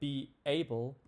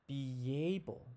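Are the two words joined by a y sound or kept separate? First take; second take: separate; joined. First: The two words are kept apart without linking. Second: A y sound links the two words together. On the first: The speaker calls it wrong. "we don't say be able" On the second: The speaker calls it right. "You can hear that Y being added there"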